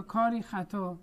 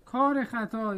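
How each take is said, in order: First: "کاری خطا" as kar-ee khata; "کاری خطا" with long i. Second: "کار خطا" as kar-e khata, short linking e; "کار خطا" with ezafe. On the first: Teacher offering the alternative reading, "کاری" ending in long ee. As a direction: end کاری on a clear long ee. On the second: Teacher offering the first of two readings, "کار" with short ezafe e. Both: Shown as a demonstration. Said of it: "کاری خطا رو کار خطا بخونیم".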